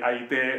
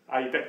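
First: The word ends in a long e sound. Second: The word ends in a short e sound. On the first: This is the Ostrobothnian dialect form. "näku pohjalaiset" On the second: This is the Häme dialect form. "Siis me olemme hämeläiset"

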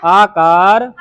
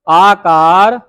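No difference in how they are said.

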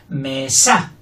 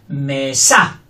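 The two takes are said the same way.

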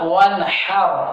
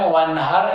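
First: The 'h' is a harsh, tight throat sound. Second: The 'h' is a plain, light breath. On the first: The speaker calls it right. "അങ്ങനെയല്ല, വൻഹർ" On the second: The speaker calls it wrong. "അതിന് പകരം വൻഹർ എന്ന് പറഞ്ഞു പോകും"

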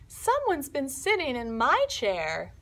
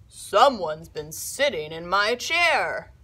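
First: The voice is medium in pitch and size. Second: The voice is big, deep and gruff. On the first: Mama Bear is speaking. "in her medium voice" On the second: Papa Bear is speaking. "in his big, gruff voice"

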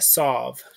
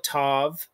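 First: The word begins with an S sound. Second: The word begins with a T sound. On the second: "this is called a tav"

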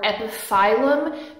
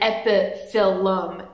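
First: The 'phyll' part sounds like 'file'. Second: The 'phyll' part sounds like 'fill'. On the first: The speaker calls it wrong. "a lot of people want to say" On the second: The speaker calls it right. "It's phyll, not file"

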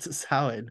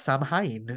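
First: The word is pronounced differently from its spelling. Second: The word is sounded out as it is spelled. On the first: This is how the word is commonly pronounced. The speaker calls it wrong. "not Samhain" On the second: This is how the spelling would be read in Welsh. The speaker calls it right. "if it was spelt like we spell Samhain now, then it would be pronounced Samhain"

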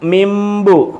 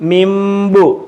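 First: The nasal before b is pronounced as m. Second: The same.

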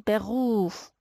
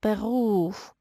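The two takes are said the same way.

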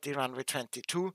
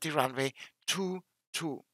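First: The number is read as one whole number. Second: The number is read one digit at a time. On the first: The speaker calls it wrong. "niemals in durchgelesenen Zahlen" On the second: The speaker calls it right. "immer Ziffer für Ziffer"

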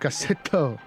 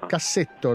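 First: The word is said with a marked accent. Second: The word is said plainly, without a marked accent. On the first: The speaker calls it wrong. "non cassetto" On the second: The speaker calls it right. "non c'è l'accento"

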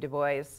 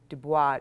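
First: It is said in a pronunciation between the others. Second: It is said with a French pronunciation. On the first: The speaker calls it right. "So you have to kind of meet somewhere in between" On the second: The speaker calls it wrong. "not like the French pronunciation"

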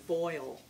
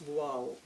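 First: It is said with an American Midwestern pronunciation. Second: It is said with a French pronunciation. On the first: "the American Midwestern pronunciation of voile" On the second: "the French pronounce voile"

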